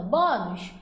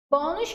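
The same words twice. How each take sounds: First: "bônus" as a mild pretend shout, first syllable leading; demonstrative, restrained mock shout on "bônus"; mock calling out. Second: Said in the usual way. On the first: Shown as a demonstration. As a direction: call out "bônus" half-heartedly to find the strong syllable. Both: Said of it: "como se estivesse gritando".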